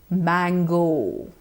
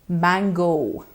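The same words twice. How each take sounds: No difference in how they are said.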